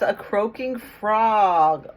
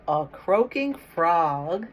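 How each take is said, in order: First: A croaking frog, slow and emphatic, louder; drawn-out storybook read. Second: Said in the usual way. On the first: Shown as a demonstration. Teacher reading to kids, slow emphatic storybook voice. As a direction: stretch out "croaking frog" for the children.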